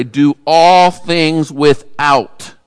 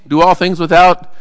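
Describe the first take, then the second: First: Each word laid down slowly with weight on all; measured scripture reading with all held long; slow emphatic reading. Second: Without lifted as a question; questioning tune rising on without; puzzled question. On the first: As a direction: read it out slowly, stressing all. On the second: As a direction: ask it back as if the phrase is unfinished. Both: Shown as a demonstration. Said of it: "What is that saying?".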